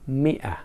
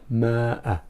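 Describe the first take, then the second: First: The first vowel is an 'i' sound. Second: The first vowel is an 'a' sound. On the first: The speaker calls it right. "even though we say mi'ah" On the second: The speaker calls it wrong. "but not ma'ah"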